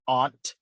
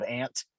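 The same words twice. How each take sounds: First: Aunt said AWNT; affected pronunciation. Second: Aunt said like ANT; everyday pronunciation. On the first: Co-host mocking people who sound ritzy, aunt as AWNT. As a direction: give aunt a broad AW vowel. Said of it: "but they're really mispronouncing something". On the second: Co-host giving the everyday form, aunt as ANT. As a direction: give aunt the short A of ant. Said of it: "instead of aunt". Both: Shown as a demonstration.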